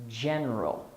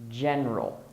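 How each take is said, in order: The two takes are said the same way.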